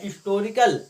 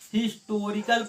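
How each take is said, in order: First: The word begins with a vowel sound. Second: The word begins with an h sound. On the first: The speaker calls it right. "इसमें हा नहीं है" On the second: The speaker calls it wrong. "यदि हा इसको पढ़ते हैं ... तो आप गलत पढ़ रहे हैं"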